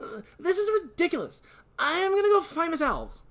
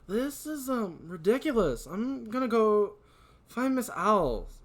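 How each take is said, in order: First: It is said in a Tails-like character voice. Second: It is said in a non-Tails character voice.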